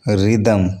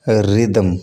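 Both takes have the same delivery.

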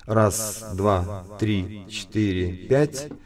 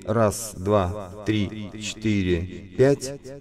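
The two takes are said the same way.

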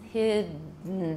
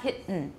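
First: The voicing continues through the middle consonant. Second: The voicing breaks off in the middle consonant. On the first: The speaker calls it right. "The voicing doesn't stop" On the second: The speaker calls it wrong. "That's voiceless"

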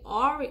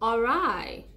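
First: The word ends with a 'ree' sound. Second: The word ends with a 'rye' sound. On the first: The speaker calls it wrong. "I used to say Awry. ... but it's not Awry" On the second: The speaker calls it right. "the correct pronunciation is Awry"

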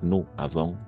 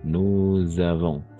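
First: Nous and avons are said separately, without z. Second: Nous links into avons with a z sound. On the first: The speaker calls it wrong. "No va a ser nous avons téléphoné" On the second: The speaker calls it right. "aquí vamos a hacer la liaison"

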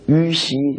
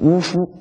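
First: The syllables sound like 'yu xi'. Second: The syllables sound like 'wu hu'. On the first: This is how the two characters are normally read. "明明是于西两个字" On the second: This is the special reading used for these characters. "你们偏要读成巫夫"

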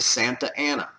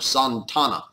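First: The name has four syllables, two vowels kept apart. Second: The name has three syllables, the vowels merged. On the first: "you can say it like that. That's fine" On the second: "as it was more properly pronounced"

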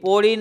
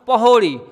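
First: The h sound in the middle is dropped. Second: The h sound in the middle is pronounced. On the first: The speaker calls it wrong. "પોળી નહીં" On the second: The speaker calls it right. "પણ પહોળી"

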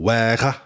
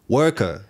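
First: It is said with clipped Liverpool vowels. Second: It is said with standard English vowels.

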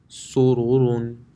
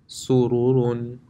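Both takes have the same delivery.

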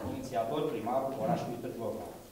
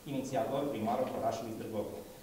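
No difference in how they are said.

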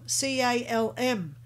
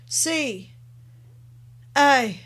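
First: The letters are spelled at a normal pace. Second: The letters are spelled at a very slow pace. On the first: "spell out the word calm" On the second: "Then do it even slower again"

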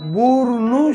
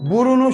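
First: The middle vowel is dropped, two syllables. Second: The word keeps the middle vowel, three syllables. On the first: The speaker calls it right. "burnu şeklinde okuruz" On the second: The speaker calls it wrong. "burunu şeklinde değil"

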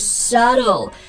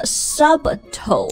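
First: No b sound is heard in the middle. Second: A b sound is heard in the middle. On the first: The speaker calls it right. "No, it's subtle" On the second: The speaker calls it wrong. "所以就不要读成了subtle"

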